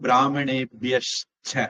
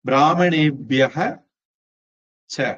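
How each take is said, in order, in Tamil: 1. 'ca'க்கு முன் sh ஒலி வரும். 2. 'ca'க்கு முன் h ஒலி வரும். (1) "இப்ப பிராமணேபியஷ்ச அப்படின்னு மாறும்" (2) "விசர்க்கம்"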